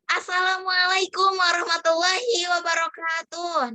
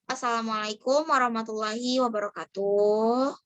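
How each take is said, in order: First: The voice sounds like someone smiling. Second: The voice sounds like someone frowning.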